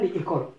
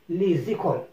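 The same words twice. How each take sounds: First: The s is silent, with no link to écoles. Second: The s is sounded as z, linked to écoles. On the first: The speaker calls it wrong. "on ne dit pas" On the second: The speaker calls it right. "je dis les écoles. Donc il est obligatoire de relier"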